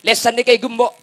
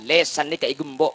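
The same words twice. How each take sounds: First: Raised, loud sermon voice; emphatic preaching. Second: Said in the usual way. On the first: Shown as a demonstration. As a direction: hammer it home louder and higher. Repeated loudly for the congregation.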